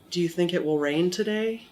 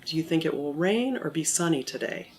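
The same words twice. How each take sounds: First: "Do you think it will rain today?" climbing on "today"; rising yes-no question. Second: "rain" lifted, then down through "sunny today"; falling open question. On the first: Teacher demonstrating a yes-no question, intonation up at the end. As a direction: lift the pitch at the end, on "today". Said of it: "Then I go up at the end". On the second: Teacher demonstrating an either-or question, intonation down at the end. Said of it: "so it goes down at the end". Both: Shown as a demonstration.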